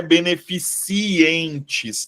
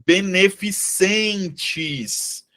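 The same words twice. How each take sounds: First: Beneficientes slowed, with the extra i in "-ci-entes"; wrong pronunciation. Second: Beneficentes drawn out very slowly, ending "-cen-tes"; correct pronunciation. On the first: (beneficientes devagar, marcando o "i" errado de "-cientes") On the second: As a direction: say beneficentes syllable by syllable, no i after the c. (beneficentes bem devagar, terminando em "-centes") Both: Shown as a demonstration. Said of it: "Não é beneficientes".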